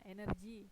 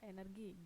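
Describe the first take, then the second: First: The g is pronounced like an English j. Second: The g is pronounced as a hard g. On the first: It borrows the English reading of the word. The speaker calls it wrong. "kebanyakan orang itu suka baca energi, padahal energi itu bahasa Inggris" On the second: It follows the Indonesian reading of the word. The speaker calls it right. "G dibaca G bukan J"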